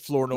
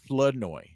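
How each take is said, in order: First: The R in the first syllable is pronounced. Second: The R in the first syllable is dropped. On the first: The speaker calls it wrong. "If you say Flournoy, we won't kill you" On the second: The speaker calls it right. "You gotta drop the R"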